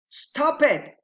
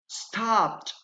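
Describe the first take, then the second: First: The ending is an extra syllable. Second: The ending adds no extra syllable. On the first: The speaker calls it wrong. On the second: The speaker calls it right. "Those are correct"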